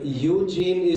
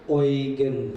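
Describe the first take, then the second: First: The name is pronounced the English way. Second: The name is pronounced the German way. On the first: "Eugene is the English pronunciation" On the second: "The German pronunciation is Eugen"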